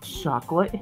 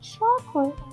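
First: It is said in a deep, growling demon voice. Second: It is said in an ordinary speaking voice. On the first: The speaker calls it right. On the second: The speaker calls it wrong.

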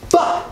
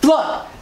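First: The word is said with no L sound after the F. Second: The word is said with an L sound after the F. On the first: The speaker calls it right. "It's fuck" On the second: The speaker calls it wrong. "not fluck"

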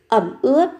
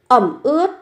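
Both takes have the same delivery.

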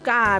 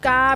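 First: The syllable is said with a low tone. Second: The syllable is said with a level mid tone. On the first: "กาเป็นเสียงเอก" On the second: "กาเป็นเสียงสามัญ"

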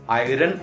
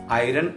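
No difference in how they are said.

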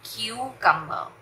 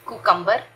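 First: The first syllable sounds like 'kyoo'. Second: The first syllable sounds like 'koo'. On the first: The speaker calls it right. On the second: The speaker calls it wrong. "कुकम्बर नहीं"

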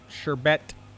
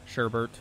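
First: The second syllable has no R sound. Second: The second syllable has an extra R sound. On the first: The speaker calls it right. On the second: The speaker calls it wrong.

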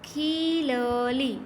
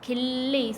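First: Each letter is sounded as its own syllable. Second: The doubled consonant is joined into one cluster. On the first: "આખો બોલી તો ખીલલી" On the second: "અડધો બોલીએ તો ખીલ્લી"

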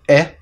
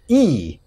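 First: The vowel is said as a short sound. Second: The vowel is said as a long sound. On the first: "the vowel changes from the short sound" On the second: "to the long sound"

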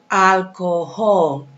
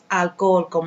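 First: The h sound in the middle is pronounced. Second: The h sound in the middle is silent. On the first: The speaker calls it right. "La H suena" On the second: The speaker calls it wrong. "No es alcohol"

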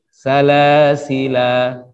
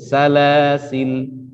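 First: The word ends on a long a vowel. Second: The word ends on a bare l sound. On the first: The final alif is kept when stopping. "alifnya tetap dianggap ada sehingga waqafnya berhenti pada alif" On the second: The final alif is dropped when stopping. "dihilangkan alifnya sehingga berhentinya pada lam yang sukun"

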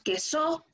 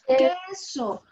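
First: The stress is on the second syllable. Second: The stress is on the first syllable. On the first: The speaker calls it wrong. "no decimos queso" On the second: The speaker calls it right. "Nosotros decimos queso"

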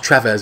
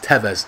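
First: An R sound follows the first T. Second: No R sound follows the first T. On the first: The speaker calls it wrong. "He always called him Carlos Trevez" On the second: The speaker calls it right. "it's Tevez"

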